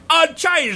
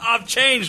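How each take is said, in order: First: It is said in a put-on Boston accent. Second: It is said in the speaker's normal accent.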